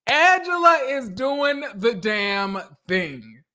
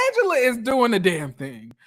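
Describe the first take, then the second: First: Slowed right down, every word weighted; savoring each word of the praise; slow emphatic repeat. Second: Said in the usual way. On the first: Shown as a demonstration. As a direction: drag out Angela is doing the damn thing for emphasis.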